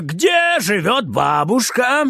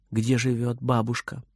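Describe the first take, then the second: First: Urgent question. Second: Said in the usual way. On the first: Acted. Passengers pressing the boy.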